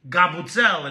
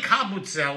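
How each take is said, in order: First: The word begins with a G sound. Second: The word begins with a K sound. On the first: "Sicilians always turn the C into a G" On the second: "It's really kabutzel with a C"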